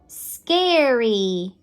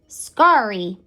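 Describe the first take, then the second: First: The vowel sounds like the word air. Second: The vowel sounds like the 'ar' in car. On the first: The speaker calls it right. "It's going to make the air sound" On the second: The speaker calls it wrong. "that doesn't sound right"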